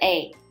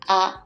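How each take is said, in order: First: The vowel is said the English way. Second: The vowel is said the Japanese way. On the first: The speaker calls it wrong. "It's not A" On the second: The speaker calls it right. "the pronunciation is A"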